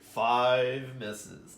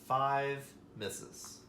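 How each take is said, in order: First: It is said in a Dracula impression voice. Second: It is said in his normal voice.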